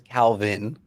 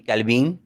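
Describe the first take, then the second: First: The name is said in his plain accent. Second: The name is said with a Mexican accent.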